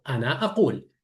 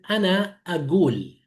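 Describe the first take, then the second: First: "ana aqul" with a back throat q, falling; classical Arabic q. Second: "ana agul" with a hard g in place of q; Baghdad g. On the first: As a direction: say "aqul" with a hard uvular q. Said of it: "Yo digo". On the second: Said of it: "El ka pronuncia como ga". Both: Shown as a demonstration.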